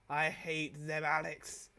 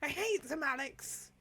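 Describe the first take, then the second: First: The line is read in a plain, neutral voice. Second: The line is read in an angry voice.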